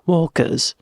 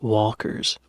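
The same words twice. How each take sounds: First: It is said in a British accent. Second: It is said in an American accent.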